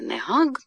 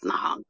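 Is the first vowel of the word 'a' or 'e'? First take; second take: e; a. First: The first vowel is a short 'e'. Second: The first vowel is an 'a'. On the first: The speaker calls it right. "Правильнее «негаг»" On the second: The speaker calls it wrong. "Академия уже разрешила вариант «нагаг»"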